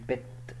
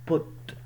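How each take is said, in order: First: The vowel is the open vowel of 'but'. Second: The vowel is the rounded vowel of 'foot'. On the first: The speaker calls it wrong. "اوعى حد ينطق لي دي بت شبه اللي فوق" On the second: The speaker calls it right. "دي اتنطق بوت مش بت"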